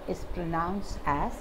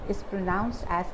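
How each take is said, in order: The two takes are said the same way.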